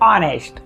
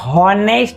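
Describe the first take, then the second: First: The word begins directly with a vowel. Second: The word begins with an h sound. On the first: The speaker calls it right. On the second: The speaker calls it wrong. "ઓનેસ્ટને હોનેસ્ટ વંચાતું નથી"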